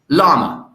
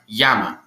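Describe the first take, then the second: First: The word begins with an L sound. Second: The word begins with a Y sound. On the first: The speaker calls it wrong. "your pronunciation is wrong" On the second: The speaker calls it right. "the correct way to say llama is in fact yama"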